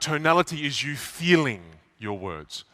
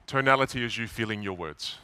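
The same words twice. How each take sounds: First: It is said with stretched vowels and emotion. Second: It is said flatly, with short vowels. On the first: The speaker calls it right. "you elongate the vowel and you inject a bit of emotion" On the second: The speaker calls it wrong. "Notice how I didn't say"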